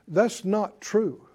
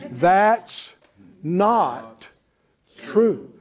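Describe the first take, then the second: First: It is said at a normal speed. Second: It is said very slowly.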